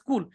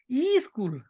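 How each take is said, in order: First: It starts directly with the s sound. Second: An extra e vowel comes before the s. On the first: The speaker calls it right. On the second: The speaker calls it wrong.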